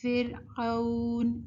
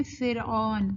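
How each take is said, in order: First: فرعون stretched as fir-auun; slow a-to-u glide in فرعون; correct leen. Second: فرعون with a plain "awn" ending; wrong reading. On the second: Teacher showing the mistake, glide flattened. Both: Shown as a demonstration. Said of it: "ہم غلط پڑھتے ہیں".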